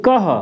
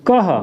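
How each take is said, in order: First: कह said as "kah" with a breath at the end; teacher sounding out "कह"; ka with visarga. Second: कह said again with a clear breathy h at the end; teacher repeating "कह"; repeated visarga. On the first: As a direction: model "कह" with an h release. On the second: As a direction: model "कह" a second time. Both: Shown as a demonstration. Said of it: "इसको पढ़ेंगे".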